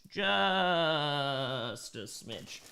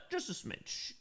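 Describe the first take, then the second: First: Very slow, stretched out; drawn out. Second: Breathy aside, whispered. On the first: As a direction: drag every word out. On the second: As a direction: slip it in as a whisper. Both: Pretend. Repeats the phrase two ways.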